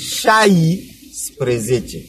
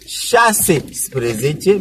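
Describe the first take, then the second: First: The number begins with the shortened form șai. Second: The number begins with the full word șase. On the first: The speaker calls it right. "mais on dit chai spre zece" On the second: The speaker calls it wrong. "On ne dit pas chasse spre zece"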